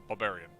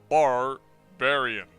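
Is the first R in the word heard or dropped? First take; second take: dropped; heard. First: The first R is skipped over quickly. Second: The first R is clearly pronounced. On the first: "I go so quick over this first R that I just roll on over it" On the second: "I do know that it's spelled barbarian"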